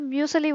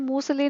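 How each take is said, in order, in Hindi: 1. पहले अक्षर में 'y' की ध्वनि है: 'myoo'। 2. पहले अक्षर में कोई 'y' ध्वनि नहीं है: 'moo'। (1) "उसका म्यूसली बोलते हैं" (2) "मूसली नहीं"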